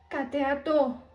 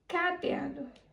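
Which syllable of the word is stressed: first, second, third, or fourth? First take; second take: fourth; first. First: The stress is on the last syllable. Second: The stress is on the first syllable. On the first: "Se a sílaba tônica fosse o TO" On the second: "se a sílaba tônica mais forte fosse o K"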